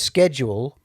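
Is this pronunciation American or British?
American. It is said with an American pronunciation. "schedule is the American pronunciation"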